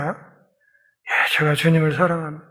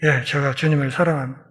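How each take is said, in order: First: A whispered yes, then softer quick words; hushed hurried answer. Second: Humble quiet answer. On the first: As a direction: Peter answers the second question in a hushed rush. Peter answers again, shaken. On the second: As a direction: lower and softer, hushed confession. Peter answers Jesus humbly. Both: Acted.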